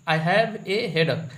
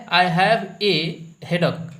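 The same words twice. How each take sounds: First: "I have a headache" said slowly, word by word; slow repeat. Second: "have" read out loud and firm; reading aloud. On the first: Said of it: "ये सही है". (धीरे-धीरे दोहराना) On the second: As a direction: read the sentence off the board, stressing "have". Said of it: "देखिए यहाँ पे लिखा है". ("have" पर ज़ोर देकर पढ़ना) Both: Shown as a demonstration.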